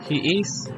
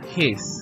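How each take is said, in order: First: Two separate full words are said. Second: The words are merged into one syllable. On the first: "Forma larga" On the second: "Forma contraída"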